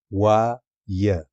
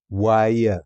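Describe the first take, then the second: First: واي drawn out very slowly as one syllable. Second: Said in the usual way. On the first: Shown as a demonstration. Teacher showing how واي forms one syllable, slowly. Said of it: "syllables drawn out". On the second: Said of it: "slow syllable demo".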